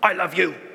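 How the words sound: It sounds harsh, like a telling off.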